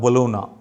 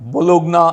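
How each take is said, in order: First: No hard g sound is heard before the n. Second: A hard g sound is heard before the n. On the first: This is how the name is actually said. The speaker calls it right. "আর উচ্চারণ করা হয় বোলোনা" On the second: This follows the spelling. The speaker calls it wrong. "বোলোগনা আসে বানানে"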